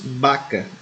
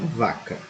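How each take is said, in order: First: The word begins with a b sound. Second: The word begins with a v sound. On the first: The speaker calls it right. "pronunciamos vaca" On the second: The speaker calls it wrong. "e não vaca"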